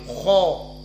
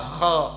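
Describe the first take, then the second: First: The syllable is heavy, with the tongue raised. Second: The syllable is light, with the tongue lowered. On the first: The speaker calls it right. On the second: The speaker calls it wrong. "bukan di bawah"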